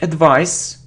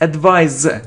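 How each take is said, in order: First: The middle consonant is an s sound. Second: The middle consonant is a z sound. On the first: The speaker calls it wrong. "it isn't advice" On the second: The speaker calls it right. "it's advise, z"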